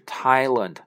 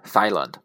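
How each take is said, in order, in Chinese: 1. 这个词开头是普通的 t 音。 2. 这个词开头是 th 音。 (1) "这个TH 这个H 是不发音的，所以是Thailand" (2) "不是Thailand"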